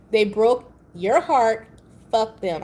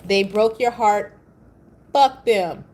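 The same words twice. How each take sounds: First: Slow, louder, weighty delivery; said with my chest again. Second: Slow, louder, firm delivery from the chest. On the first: For whoever needed to hear it, firm chest voice. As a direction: lean in and land it from the chest. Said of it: "I said that with my chest for you". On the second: Telling heartbroken viewers, said firmly with chest. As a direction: plant your feet and say it with full chest. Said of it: "I said that with my chest". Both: Shown as a demonstration.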